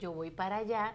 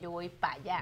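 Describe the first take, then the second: First: Every word is pronounced fully and clearly. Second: Some sounds of the words are cut off. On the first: "En vez de decir" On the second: "el dominicano corta muchas palabras"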